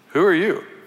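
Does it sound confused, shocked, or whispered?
confused. It is said in a confused tone.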